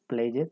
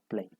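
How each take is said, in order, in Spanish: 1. La terminación -ed se dice como una sílaba extra. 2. La terminación -ed no agrega ninguna sílaba extra. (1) "no diríamos played" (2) "sino played"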